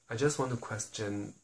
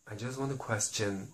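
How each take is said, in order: Both takes have the same delivery.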